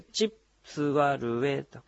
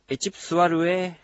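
First: The phrase is said slowly and carefully. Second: The phrase is said at a normal speed.

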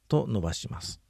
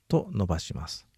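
No difference in how they are said.

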